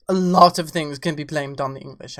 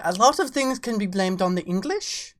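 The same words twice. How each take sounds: First: Put-on posh English accent, lower and louder. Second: Said in the usual way. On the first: Shown as a demonstration. Streamer to chat, in a mock English accent. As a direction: say it like a stuffy Englishman. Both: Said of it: "I say with an English accent".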